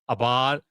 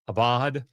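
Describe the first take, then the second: First: The middle consonant is a b sound. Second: The middle consonant is a b sound.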